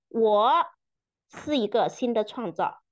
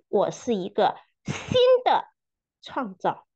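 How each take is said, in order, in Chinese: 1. 重音在“我”这个词上。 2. 重音在“新的”这个词上。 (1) "强调每一个词" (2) "强调每一个词"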